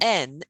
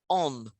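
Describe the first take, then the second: First: The syllable has a front 'en' vowel. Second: The syllable has a rounded 'on' vowel. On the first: The speaker calls it wrong. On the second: The speaker calls it right. "It's more like entrepreneur"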